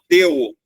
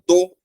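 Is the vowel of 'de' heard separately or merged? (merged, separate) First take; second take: separate; merged. First: The two vowels are pronounced separately. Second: The vowels merge into one sound. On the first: The speaker calls it wrong. "eu não falo deu" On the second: The speaker calls it right. "eu falo do"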